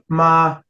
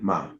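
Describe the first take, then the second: First: The pitch stays high and level. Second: The pitch has no marked contour. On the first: "your high neutral tone" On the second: "Just empty"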